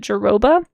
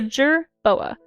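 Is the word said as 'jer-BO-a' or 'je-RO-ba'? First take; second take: je-RO-ba; jer-BO-a. First: The R sound comes before the B sound. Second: The B sound comes right after the R sound. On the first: The speaker calls it wrong. "I always in my head pronounced it Jeroba" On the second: The speaker calls it right. "but it's not. It's a jerboa"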